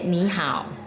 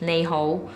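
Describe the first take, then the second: First: It is pronounced the Mandarin way. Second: It is pronounced the Cantonese way. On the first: "in Mandarin you say Ni Hao" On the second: "You say in Cantonese is Nei Hou"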